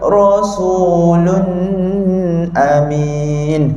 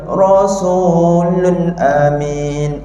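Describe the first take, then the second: First: The nasal hum on 'lun' is held long. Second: There is no nasal hum on 'lun' at all. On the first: "saya buat dengung panjang" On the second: "saya buat tak ada dengung langsung"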